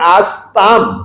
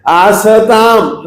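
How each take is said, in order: First: The s joins the t with no vowel. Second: A short vowel comes between s and t. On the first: The speaker calls it right. "स को हलंत बोलना है" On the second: The speaker calls it wrong. "आसताम नहीं"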